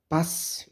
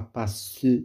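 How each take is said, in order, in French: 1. Le e final est muet. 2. Le e final se prononce comme une syllabe. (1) "le E ne se prononce pas" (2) "on ne dit pas passe"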